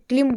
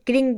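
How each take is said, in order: First: It starts with kl and ends with m. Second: It starts with kr and ends with ng. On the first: "कोई इसे क्लिम बोलता है" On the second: "कोई इसे क्रिंग बोलता है"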